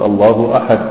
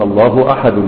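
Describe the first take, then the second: First: "الله أحد" ending in a still, unvoiced dal with no nunation; pausal form. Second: Said in the usual way. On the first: Shown as a demonstration. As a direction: stop dead on "أحد" and drop the tanween. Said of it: "هتشيل التنوين خالص وتقول". (وقف على "أحد" بسكون الدال دون تنوين) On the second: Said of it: "أنت في الوقف هتقول".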